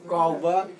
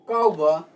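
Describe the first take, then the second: First: The word is said with a rising tone. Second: The word is said with a falling tone. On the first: To forget. "This is rising tone" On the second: To kick. "falling tone ni kauba"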